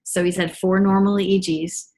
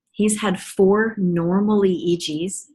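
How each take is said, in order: First: "normal" gets the peak, at normal pace; stress on normal. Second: "four" stretched slowly and leaned on, whole line slowed; stress on four. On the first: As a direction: lift "normal" above the rest. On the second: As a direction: hammer "four" with slow weight. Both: Real, not acted. Repeating a triumphant fact.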